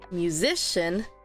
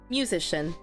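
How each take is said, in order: First: The stress is on the second syllable. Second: The stress is on the first syllable. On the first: The speaker calls it right. "If I stress the second one" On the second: The speaker calls it wrong. "If I were to stress the first one"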